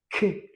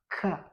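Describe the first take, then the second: First: K said as a short "ke", not "ka"; French K sound. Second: K said as "ka", with an open a; Kinyarwanda K. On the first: Teacher shows the French sound to pupils, K as short "ke". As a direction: give K its French sound, a brief "ke". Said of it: "Twagera mu Gifaransa ikaba". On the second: Teacher contrasts languages for pupils, K as Kinyarwanda "ka". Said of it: "mu Kinyarwanda". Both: Shown as a demonstration.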